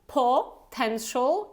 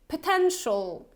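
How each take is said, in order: First: The first syllable has a full, clear vowel. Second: The first syllable has a weak schwa vowel. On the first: The speaker calls it wrong. "so it's not potential" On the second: The speaker calls it right. "schwa sound in the first syllable"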